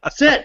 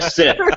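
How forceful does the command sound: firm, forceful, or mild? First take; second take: forceful; mild. First: The command is said forcefully and exasperated. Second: The command is said mildly and calmly. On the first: The listener keeps ignoring the command. "an increasingly disobedient dog" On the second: The listener is expected to obey. "how your tone changes as the Xbox is not listening to you"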